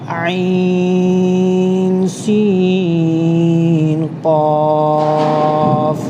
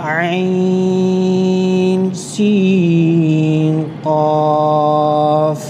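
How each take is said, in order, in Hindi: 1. हर अक्षर के नाम में स्वर खींचकर पढ़े जाते हैं। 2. हर अक्षर के नाम में स्वर खींचकर पढ़े जाते हैं।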